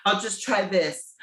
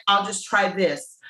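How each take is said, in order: Both takes have the same delivery.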